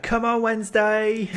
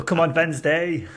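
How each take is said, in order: First: High, loud football fan's cheer; drawn-out shout cheering the team on; Timo Werner shouting. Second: Loud, high shout in a put-on German accent; slow German-accented football cheer, W said as V. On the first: Acted. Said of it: "just Timo Werner shouting". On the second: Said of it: "That's my German accent".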